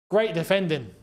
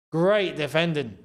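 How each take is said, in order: Both takes have the same delivery.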